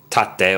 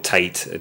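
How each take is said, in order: First: The word is pronounced the Japanese way. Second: The word is pronounced the English way. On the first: "whether you pronounce it Japanese" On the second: "or English"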